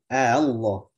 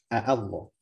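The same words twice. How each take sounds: First: The second hamza is softened toward a vowel. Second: The second hamza is pronounced fully and clearly. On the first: "dibikinlah dengan tasil" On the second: "asal katanya apa?"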